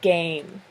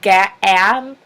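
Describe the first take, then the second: First: The vowel is a long A sound. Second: The vowel is a short A sound. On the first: The speaker calls it right. "change it to be the long A sound" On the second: The speaker calls it wrong. "instead of it being the short A"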